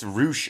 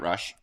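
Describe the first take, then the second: First: The vowel is a long oo sound. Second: The vowel is a short uh sound. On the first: The speaker calls it right. "it's Roosh apparently" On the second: The speaker calls it wrong. "not Rush"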